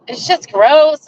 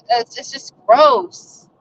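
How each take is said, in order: First: Said in the usual way. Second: "gross" stretched slowly with a rising end; slow, disgusted "It's, it's just gross"; drawn-out disgust. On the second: Real, not acted. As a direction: linger on "gross", drawing it out slowly.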